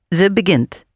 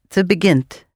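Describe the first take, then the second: The two takes are said the same way.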